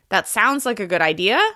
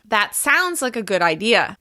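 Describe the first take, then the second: First: The pitch rises at the end. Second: The pitch falls at the end. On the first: The speaker doubts it is a good idea. "if I rise in pitch at the end of the sentence" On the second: The speaker believes it is a good idea. "saying this statement with falling intonation at the end"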